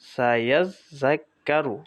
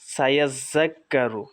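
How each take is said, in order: First: The word is read in separate parts. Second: The word is read joined together smoothly.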